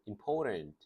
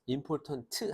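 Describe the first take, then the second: First: The word ends on t without any added vowel. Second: The final t is released with an added vowel. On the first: The speaker calls it right. "important 하고 끝나잖아요" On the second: The speaker calls it wrong. "important 하지 않고"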